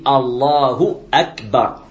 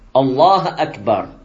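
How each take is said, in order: First: Allah ends with a u vowel before Akbar. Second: Allah ends without a vowel before Akbar. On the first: The speaker calls it right. "On dit Allahu Akbar" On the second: The speaker calls it wrong. "Au lieu de dire Allahu, il dit Allah"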